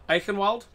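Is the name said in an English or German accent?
English. It is said in a plain English accent.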